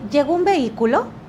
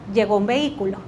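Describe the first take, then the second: First: It has an open questioning tune. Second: It sounds like a statement with a slight final rise. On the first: The speaker calls it wrong. "¿Qué estoy haciendo en el primer tono? Mucha posibilidad de que la persona venga, me cuente" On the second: The speaker calls it right. "Pregunten con tono de afirmación y métanle una pequeña chispita de pregunta al final"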